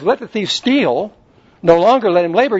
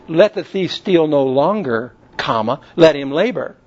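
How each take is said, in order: First: The pause comes right after the word steal. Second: The pause comes right after the word longer. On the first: The thief is told to keep stealing. The speaker calls it wrong. "So should I interpret this to mean that the thief should steal?" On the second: The thief should stop stealing and work instead. The speaker calls it right.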